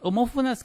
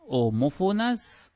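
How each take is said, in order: First: Said in the usual way. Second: Homófonas, dicha muy despacio y con subida al final; término marcado despacio. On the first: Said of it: "Homófonas que, se leen y se escuchan igual". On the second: Shown as a demonstration. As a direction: alarga cada sílaba de homófonas. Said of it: "Palabras homónimas, homófonas". (homófonas pronunciada lenta, subiendo al final)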